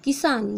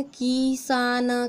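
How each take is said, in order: First: किसान with a short, quick "ki" at the start; किसान said briskly, first syllable cut short; short, quick vowel. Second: किसान stretched very slowly, every vowel held long; slow, leisurely mispronunciation of किसान; drawn-out wrong pronunciation. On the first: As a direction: say the कि of किसान with a jerk. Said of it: "झटके से की बोलते हैं". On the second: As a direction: drag out किसान as "keee-saaa-naa". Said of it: "आराम से तो नहीं बोलेंगे". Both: Shown as a demonstration.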